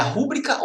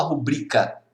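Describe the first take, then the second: First: "rúbrica" stressed at the start, RU-bri-ca; tônica na primeira sílaba. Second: "rubrica" stressed on middle syllable, ru-BRI-ca; tônica na penúltima. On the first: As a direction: hit RU in "rúbrica". ("rúbrica" com a tônica no RU) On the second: ("rubrica" com a tônica no BRI) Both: Shown as a demonstration.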